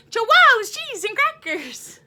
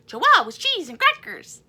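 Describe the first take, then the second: First: Chanted, higher and louder, punchy; chanted, go bigger this time. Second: Excited chant. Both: Shown as a demonstration. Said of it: "One more time".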